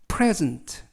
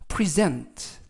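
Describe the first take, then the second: First: The stress is on the first syllable. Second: The stress is on the second syllable. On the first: It is a noun meaning a gift. "명사일 때는 앞에 있는 이에 강세가 있고요" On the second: It is a verb meaning to give. "동사일 때는 어, 뒤에 있는 이에 강세가 붙습니다"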